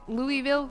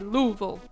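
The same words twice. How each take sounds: First: The ending is pronounced fully and clearly. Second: The ending is reduced and swallowed. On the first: The speaker calls it wrong. "you wouldn't say" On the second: The speaker calls it right. "you'd say"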